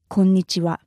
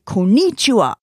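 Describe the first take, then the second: First: It is said with a flat, even pitch. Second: It is said with strong, English-style stress. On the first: The speaker calls it right. "very, very flat. No intonation" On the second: The speaker calls it wrong. "in English we tend to say konnichiwa"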